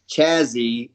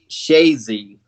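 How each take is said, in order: First: The name begins with a 'ch' sound. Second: The name begins with an 'sh' sound. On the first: The speaker calls it wrong. "It's not Chazzy" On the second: The speaker calls it right. "they pronounce it different up there, the C H"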